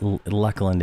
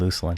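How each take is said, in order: First: The first syllable sounds like 'luck'. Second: The first syllable sounds like 'loose'. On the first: The speaker calls it right. "Luckland is the official uh, official pronunciation" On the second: The speaker calls it wrong. "I keep saying Luceland"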